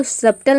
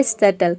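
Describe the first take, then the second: First: सटल said as "sab-tal", b clearly pronounced; सटल with the silent b wrongly spoken; wrong take with b sounded. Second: सटल said as "sa-tal", no b sound; सटल the right way, b dropped; correct silent b. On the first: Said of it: "इसको सटल नहीं pronounce करते हैं". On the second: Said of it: "इसको pronounce करते हैं सटल". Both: Shown as a demonstration.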